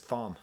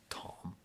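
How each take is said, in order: First: The name begins with a 'th' sound. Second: The name begins with a plain 't' sound. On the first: The speaker calls it wrong. "I read it as Thom. I didn't know you didn't pronounce" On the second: The speaker calls it right. "Tom, but it's spelled Thom"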